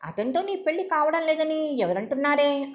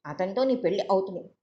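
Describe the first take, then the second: First: Higher, pressing challenge on నీ; who said నీ పెళ్లి isn't happening, demanding; incredulous. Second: Calm, level promise with నీ leaned on; reassuring. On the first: Sister challenging her conclusion. (ఆశ్చర్యంగా నిలదీస్తూ) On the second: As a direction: settle her fears firmly. Sister reassuring her. (భరోసాగా, నెమ్మదిగా) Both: Acted.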